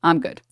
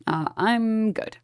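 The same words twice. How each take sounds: First: Said in the usual way. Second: Slow, sing-song brush-off; drawn-out dismissive. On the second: Shown as a demonstration. Brushing off chat about mourning the CEO, slow and unbothered. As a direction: stretch it out, unbothered.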